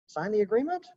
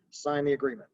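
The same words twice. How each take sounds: First: "sign the agreement" rising sharply at the end; question inflection. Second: "sign the agreement" with a falling end on "agreement"; authoritative fall through "agreement", no question in it; downward inflection. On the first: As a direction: pitch climbs on "agreement", as if asking. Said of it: "like a question". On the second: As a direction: give "sign the agreement" as a direction, pitch dropping. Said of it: "that's a downward inflection, the way I'm speaking it". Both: Shown as a demonstration.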